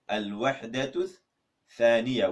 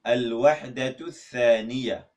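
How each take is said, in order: First: Al-Wahdatul with a rise, pause, then Thaniya falling; split in two. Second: Al-Wahdatul Thaniya said slowly in Arabic; Arabic title. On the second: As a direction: model Al-Wahdatul Thaniya clearly for the class. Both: Shown as a demonstration. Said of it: "how do you say unit two".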